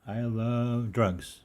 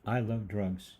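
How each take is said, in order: First: Slow, emphatic repeat. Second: Said in the usual way. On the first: Shown as a demonstration. Host repeating a provocative line to listeners, slow and emphatic. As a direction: drag out I love drugs for emphasis.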